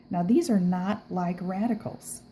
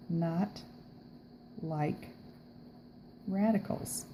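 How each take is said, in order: First: Said in the usual way. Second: "not" "like" "radicals" spaced out with long pauses, softer; slow it down, one word at a time to drive it home; teacher stressing each word apart; stressed word by word. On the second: Shown as a demonstration.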